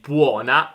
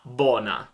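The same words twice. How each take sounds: First: It is said with the standard 'uo' vowel. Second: It is said with a plain Roman 'o' vowel. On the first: "non è buona" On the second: "ma buona ... è semplicemente dialetto romano"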